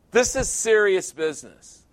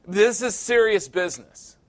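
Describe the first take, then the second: No difference in how they are said.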